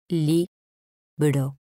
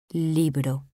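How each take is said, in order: First: "Libro" split as Li, bro, pause between; syllable by syllable. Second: Said in the usual way. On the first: Shown as a demonstration. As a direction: say "Libro" in two separate pieces, Li... bro. ("Libro" separado en sílabas: li, bro) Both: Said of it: "Separación de sílabas".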